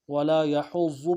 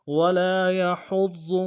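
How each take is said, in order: First: يحض with ض said as z; wrong z for ض. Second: يحض with heavy emphatic ض, louder; correct ض. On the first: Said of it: "ایسا نہیں کرنا". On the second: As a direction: press ض in يحض. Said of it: "ضاد کے مخرج سے ہی پڑھنا ہے". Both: Shown as a demonstration.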